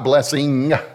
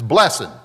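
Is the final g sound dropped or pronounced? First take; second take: pronounced; dropped. First: The final g sound is pronounced. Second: The final g sound is dropped. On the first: It is not the Southern way of saying it. The speaker calls it wrong. "not blessing" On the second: It is the Southern way of saying it. The speaker calls it right. "The G is not pronounced in the Southern lexicon. It's blessing"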